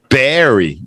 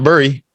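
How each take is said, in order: First: The vowel sounds like the one in bear. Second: The vowel sounds like the one in fur. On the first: The speaker calls it right. "the pronunciation is bear" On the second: The speaker calls it wrong. "that's not how we say it. It's not bury"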